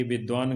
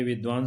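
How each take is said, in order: First: विद्वान said as vidaan, dropping the v after d; विद्वान without the dv cluster; the careless विद्वान; wrong pronunciation. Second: विद्वान said as vidvaan, with the full dv cluster; विद्वान with a clear v after the d; the careful विद्वान; correct pronunciation. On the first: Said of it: "गलत है". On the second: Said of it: "सही है". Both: Shown as a demonstration.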